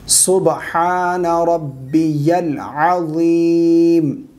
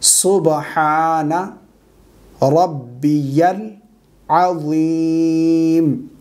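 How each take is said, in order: First: The phrase flows without pauses between words. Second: Each word is said separately with pauses.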